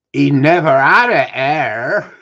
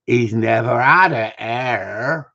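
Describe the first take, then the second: First: Slow, loud Somerset drawl, pitched up; deep Somerset voice. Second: Slow Somerset drawl, a bit louder; broad Somerset accent, drawn out; deep Somerset voice. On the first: Panel judge quoted in a deep Somerset accent. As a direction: lean into a broad Somerset accent. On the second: Retelling the panel judge's line in a Somerset accent. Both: Retold or imitated. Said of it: "in that deep Somerset voice".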